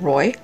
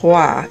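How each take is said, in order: First: The word is said with an English pronunciation. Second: The word is said with a French pronunciation. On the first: The speaker calls it wrong. "instead of Roy" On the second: The speaker calls it right. "that is pronounced Roi"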